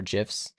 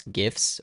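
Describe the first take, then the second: First: "gifs" with a soft g, like jifs. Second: "gifs" with a hard g as in gift. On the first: Streamer naming both ways to say it, "gifs" with soft g. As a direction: say "gifs" starting like "jiffy". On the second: Streamer naming both ways to say it, "gifs" with hard g. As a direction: say "gifs" starting like "give". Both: Shown as a demonstration.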